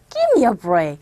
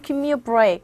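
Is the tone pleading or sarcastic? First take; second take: sarcastic; pleading. First: It sounds mocking, with stress on the first word. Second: It sounds plaintive and pleading. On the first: The speaker dismisses the other's claim as ridiculous. "이 첫 번째 강세를 주셔서 ... sarcastic way로 비아냥거리면서" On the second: The speaker is begging for leniency. "굉장히 이렇게 뭔가 애달프고 어 좀 봐주세요 이런 거잖아요"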